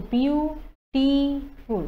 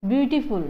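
First: beautiful in three slow, held syllables. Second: Said in the usual way. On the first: Shown as a demonstration. Teacher showing three syllables, beautiful slowly split. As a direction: pause between each long syllable of beautiful. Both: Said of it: "ইয়াতে তিনিটা syllable হ'ব".

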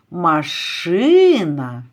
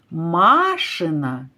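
First: Машина stressed on the middle И, lengthened; stress on second syllable. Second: Машина stressed on МА, first А lengthened; stress on first syllable. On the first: Teacher contrasts syllables, putting машина's stress on the middle И. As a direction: put the weight on the И of машина. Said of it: "на другий склад". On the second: Teacher contrasts syllables, putting машина's stress on the first А. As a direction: put the weight on the first А of машина. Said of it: "на перший склад". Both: Shown as a demonstration.

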